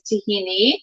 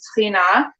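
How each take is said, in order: First: The word ends in an 'ee' vowel. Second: The word ends in an 'ah' vowel. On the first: This is the Greek form of the word. "the Greek pronunciation is tahini" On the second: This is the Arabic and Israeli Hebrew form of the word. "the Arabic and Israeli Hebrew pronunciation is tahina"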